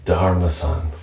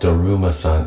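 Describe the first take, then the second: First: The 'u' sound in the name is dropped. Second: The 'u' sound in the name is pronounced. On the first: The speaker calls it right. "they don't pronounce the U" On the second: The speaker calls it wrong. "It's not actually"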